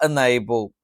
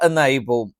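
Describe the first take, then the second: The two takes are said the same way.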